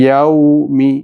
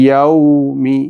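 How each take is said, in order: No difference in how they are said.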